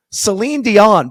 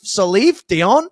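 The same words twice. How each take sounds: First: "Celine Dion" loud and high, with a clear n ending the first name; retold emphatic "Celine Dion" correction; correcting the name. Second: "Salif Dion" slowly, with an f sound ending the first name; stretched, questioning "Salif Dion", imitating the mishearing; misheard name. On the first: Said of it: "And I go". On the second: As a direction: mimic a puzzled "Salif Dion?", rising at the end. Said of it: "you did the pronunciation perfectly".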